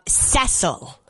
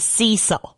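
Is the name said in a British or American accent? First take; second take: British; American. First: It is said with a British pronunciation. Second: It is said with an American pronunciation.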